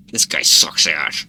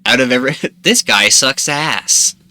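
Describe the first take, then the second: First: Low, slow and grumbling; angry voice. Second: Said in the usual way. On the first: Acted. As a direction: growl it out with a scowl. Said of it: "make an angry face". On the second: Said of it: "Or wait, no, I'm gonna make".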